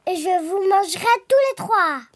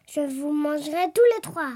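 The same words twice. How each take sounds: First: Emphatic wolf threat, lightly voiced; threatening wolf. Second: Contained, lightly voiced wolf threat; scheming wolf. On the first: Wolf threatening all three pigs at the door, emphatic. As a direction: build the threat to a peak. Wolf's threat builds to its peak. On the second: Wolf planning to come down the chimney, understated threat. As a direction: keep the menace understated. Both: A narrator's reading.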